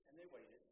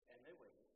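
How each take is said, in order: No difference in how they are said.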